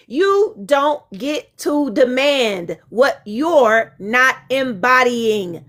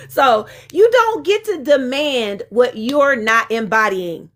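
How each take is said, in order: First: Each word slow and deliberate, x0.5; slow emphatic reread. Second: Said in the usual way. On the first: Shown as a demonstration. Rereading her line slowly for the people in the back. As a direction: spell it out slowly so the back row hears. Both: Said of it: "I'ma read that again for the people in the back".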